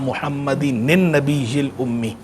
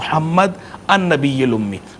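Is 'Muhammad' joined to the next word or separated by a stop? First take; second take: joined; separated. First: Muhammad runs straight on with an added 'n' sound. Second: A stop follows Muhammad before the next word. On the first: "मिलाकर पढ़ने की सूरत में एक ज़ेर होगी और दूसरी ज़ेर की जगह नून आ जाएगा" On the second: "वक्फ़ करके पढ़ना है तो फिर यूँ पढ़ेंगे"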